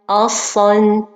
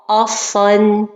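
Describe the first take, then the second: No difference in how they are said.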